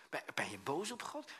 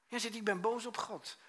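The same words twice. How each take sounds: First: Puzzled query, rising at the end; questioning echo. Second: High, louder protest of being angry; mock angry declaration. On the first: Retold or imitated. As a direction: repeat it as a question, rising on "God". Preacher questions the man back. (vragend herhalen) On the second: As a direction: voice the aggrieved man, pitched high. Man's angry statement, acted. (verontwaardigde uitroep naspelen)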